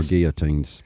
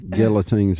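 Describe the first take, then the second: First: Put-on "guillotines" with no L, GEE-uh-teens; silent L. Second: Put-on "guillotines" with the L sounded, GILL-uh-teens; L pronounced. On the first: Host comparing show-name pronunciations, "guillotines" with silent L. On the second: Host comparing show-name pronunciations, "guillotines" with a sounded L. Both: Shown as a demonstration. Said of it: "how would the creator of the show want to pronounce".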